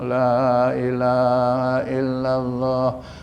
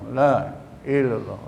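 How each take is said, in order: First: Every syllable is said slowly and fully. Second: Syllables are run together and the middle dropped. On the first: The speaker calls it right. "Alon-alon baca" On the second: The speaker calls it wrong. "Ini macam la ilallah"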